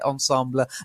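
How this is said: It is said with a French-style pronunciation. This can sound a bit pretentious. "you will hear ensemble, especially from people who know French"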